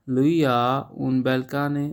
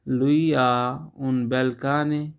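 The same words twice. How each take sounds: The two takes are said the same way.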